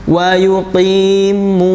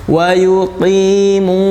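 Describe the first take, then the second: The two takes are said the same way.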